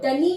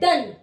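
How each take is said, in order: First: The word ends with an added 'ee' vowel. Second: The word ends on the 'n' with no vowel. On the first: The speaker calls it wrong. "ना तो डनी बोलते हैं" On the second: The speaker calls it right. "हम इसे बोलते हैं डन"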